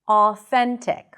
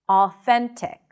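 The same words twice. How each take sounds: Both takes have the same delivery.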